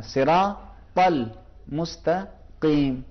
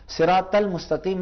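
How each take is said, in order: First: Very slow "صراط" with a full, heavy ص; correct heavy sad. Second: "صراط" said with a light Urdu س; wrong way. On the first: Teacher slowly modelling the correct heavy Sirat. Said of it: "ہم یہ کہیں". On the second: Teacher showing the wrong, thin way to say Sirat. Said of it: "نہ کہیں". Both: Shown as a demonstration.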